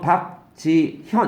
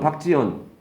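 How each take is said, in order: First: Said carefully with the h sound pronounced. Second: Said quickly with the h sound dropped. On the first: "또박또 발음은 박지현 이렇게 할 텐데" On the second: "빨리 발음은 박지연"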